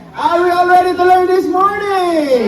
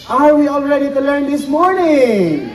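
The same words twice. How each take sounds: First: Higher, louder rallying shout; louder repeat call. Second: Rallying call to crowd. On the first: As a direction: push harder so everyone answers. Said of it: "Ulitin nga natin". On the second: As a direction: rouse the crowd. Host rallies crowd at bird show. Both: Real, not acted.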